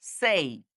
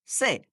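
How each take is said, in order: First: সেই drawn out into a ই glide; correct pronunciation. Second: সে with a short pure vowel; old mispronunciation. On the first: Teacher modelling correct say, drawn-out gliding সেই. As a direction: end সেই on a falling short ই. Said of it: "শুদ্ধ উচ্চারণে আমরা বলবো". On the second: Teacher showing how we used to say say, glideless সে. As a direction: say সে with no ই at the end. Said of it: "আমরা বলতাম". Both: Shown as a demonstration.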